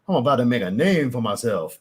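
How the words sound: The accent sounds forced and exaggerated. It is an outsider's attempt at the accent. The speaker calls it wrong. "it sounds forced. That's not how that's supposed to sound"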